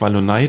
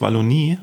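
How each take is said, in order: First: The word ends with an 'eye' sound. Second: The word ends with an 'ee' sound. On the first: The speaker calls it wrong. "das heißt nicht Wallonei" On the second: The speaker calls it right. "das heißt Wallonie"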